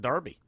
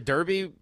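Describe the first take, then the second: First: The first vowel sounds like 'ar' in 'car'. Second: The first vowel sounds like 'er' in 'her'. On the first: It is said the English way. "pretend that E's an A" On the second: It is said the way it is spelled. "because that's the word I'm looking at"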